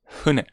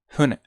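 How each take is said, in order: No difference in how they are said.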